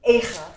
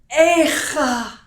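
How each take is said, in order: First: It is said plainly, without lamenting intonation. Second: It is said with a pained, lamenting intonation.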